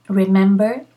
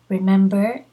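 No difference in how they are said.

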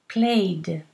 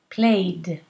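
First: The word ends with a voiced D sound. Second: The word ends with a voiced D sound.

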